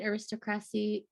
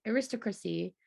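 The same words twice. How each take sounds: First: Aristocracy slurred as air-ist-crassy, a syllable lost; mispronounced. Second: Aristocracy retried as air-ist-AH-cruh-see; second try. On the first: Reading aloud to her cohost, she garbles aristocracy. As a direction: stumble over aristocracy, dropping the middle syllable. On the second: Reading aloud, she retries aristocracy more fully. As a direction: take another run at aristocracy, fuller. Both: Real, not acted. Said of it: "I'm not pronouncing things great today".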